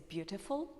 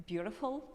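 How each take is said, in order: First: "beautiful" with a clear released T; "beautiful" as "byoo-tih-ful"; British T. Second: "beautiful" with the T tapped like an R; "beautiful" as "byoo-ruh-ful"; American flapped T. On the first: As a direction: sound the middle T of "beautiful". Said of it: "British people say". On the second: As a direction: soften the middle T of "beautiful". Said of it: "a T sound in the middle to R". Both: Shown as a demonstration.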